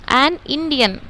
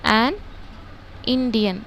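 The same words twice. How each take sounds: First: A slow, joined an Indian; slow example. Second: एन, a pause, then Indian; separated words. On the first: Teacher showing students the example, slow and joined. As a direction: say अम, एन Indian slowly as one phrase. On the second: Teacher splitting the article from the noun for students. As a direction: break एन from Indian with a clear pause. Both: Shown as a demonstration. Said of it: "देखो मैं आपको".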